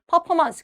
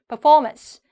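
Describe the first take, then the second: First: No syllable is given strong stress. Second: The second syllable carries strong stress. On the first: The speaker calls it wrong. "그냥 이렇게 평범하게 얘기하는데" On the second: The speaker calls it right. "이음절에다가 정확하게 강세를 두셔야 돼요"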